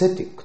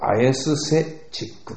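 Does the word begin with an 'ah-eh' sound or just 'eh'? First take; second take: eh; ah-eh. First: The word starts with a single eh vowel. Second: The word starts with two vowels, ah then eh. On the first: The speaker calls it right. "アエはエと発音するんです。" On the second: The speaker calls it wrong. "そのまま読むとアエスセチックという発音しそうですね。そうじゃないんですね。"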